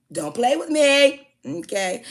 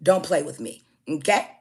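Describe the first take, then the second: First: Much higher, louder and slow, each word hit; rising shouted warning. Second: Said in the usual way. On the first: Retold or imitated. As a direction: drag out the threat like a final warning. Warning the caller, repeated harder.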